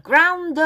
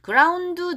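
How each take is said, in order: First: "ground" sung with the d gliding into "oh"; linked ending. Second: "ground" with a separate "du" on the end; unlinked ending. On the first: Teacher showing the right way, "ground" linked as "groun-doh". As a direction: link the d of "ground" into a held "oh". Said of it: "여기가 연음이 돼요". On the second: Teacher showing what to avoid, "ground" left unlinked. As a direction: end "ground" on its own added vowel. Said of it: "도 하지 말고". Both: Shown as a demonstration.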